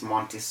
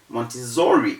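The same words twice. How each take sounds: First: The middle consonant is a hissing s sound. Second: The middle consonant is a buzzing z sound. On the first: The speaker calls it right. "The correct thing to say is Montessori" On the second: The speaker calls it wrong. "Montessori is wrong"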